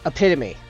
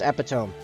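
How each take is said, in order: First: The word is said with its standard pronunciation. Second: The word is said letter by letter, as spelled. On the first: The speaker calls it right. "That's an example" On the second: The speaker calls it wrong. "I always read that as epitome"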